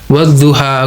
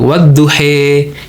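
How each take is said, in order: First: The word ends with an 'a' vowel. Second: The word ends with an 'e' vowel. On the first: This matches the written form. "wadduha nggak gitu" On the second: This is the regional reading in Sudan or Africa. "di sana aksennya itu duhe"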